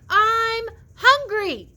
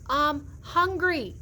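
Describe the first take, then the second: First: It is yelled very loudly. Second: It is said at normal volume.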